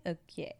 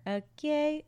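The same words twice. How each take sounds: First: Softer, dropped okay to settle; soft settling okay. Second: High, bright excited okay; hyped okay. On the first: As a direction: bring Okay down to a murmur. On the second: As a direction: pump yourself up on Okay. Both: Acted. Okay twice, hyped then quiet.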